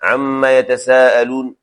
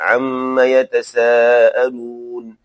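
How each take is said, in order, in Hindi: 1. वाक्यांश जल्दी में है, अंत में झटके से रुकता है। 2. वाक्यांश आराम से है, अंत में पूरा ठहराव है। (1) "जल्दबाजी में करते हैं" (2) "आप उसको कहें"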